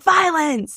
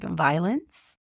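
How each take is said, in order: First: It is said in an alarmed, urgent tone. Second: It is said in a low, sultry tone.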